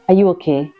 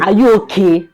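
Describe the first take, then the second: First: It is said in a calm, even voice. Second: It is said in a raised, stronger voice. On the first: The asker is checking on the listener's wellbeing. "It means are you all right?" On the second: The asker is calling the listener foolish. "If I increase"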